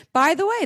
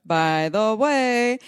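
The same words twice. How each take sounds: First: High catchphrase. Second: BY THE WAY stretched very slowly, higher; drawn-out catchphrase. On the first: Episode catchphrase, first take. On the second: Host teasing this episode's topic, slow drawn-out BY THE WAY. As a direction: draw out BY THE WAY in a raised voice. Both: Real, not acted.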